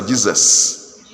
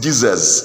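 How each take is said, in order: First: Jesus closing on a long s; Jesus with its final s clearly hissed; hissed S ending. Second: Jesus closing on a z sound; Jesus said as if spelt with final z; voiced ending. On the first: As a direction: end Jesus with a drawn hiss. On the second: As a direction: end Jesus with a buzz, not a hiss. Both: Shown as a demonstration. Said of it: "Is it S?".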